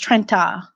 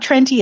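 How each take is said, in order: First: The word ends with an 'ah' sound. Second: The word ends with an 'ee' sound. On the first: The speaker calls it right. "it's Trenta" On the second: The speaker calls it wrong. "It's not Trenti"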